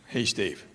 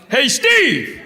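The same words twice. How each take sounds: First: Said in the usual way. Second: Raised, higher-pitched holler; yell out. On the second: Acted. Comedian calling to his buddy in a movie theater, loud yell. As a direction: holler it across a packed room. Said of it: "and I just yell out".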